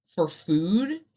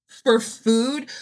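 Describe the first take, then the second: First: Said in the usual way. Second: "for food" louder and higher, rising in disbelief; emphatic repeat. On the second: Shown as a demonstration. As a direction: hit "for food" hard and rise at the end. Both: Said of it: "repeats for emphasis".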